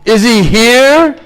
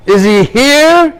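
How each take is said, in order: First: Slow, loud and higher, furious; raging demand. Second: Even higher and slow, loud roaring challenge; rising fury. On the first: Demon king daring his son's god to appear, raging. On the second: Demon king raging louder at his son, slow furious roar. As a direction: push the rage up a notch. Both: Acted.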